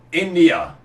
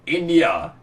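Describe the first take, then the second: No difference in how they are said.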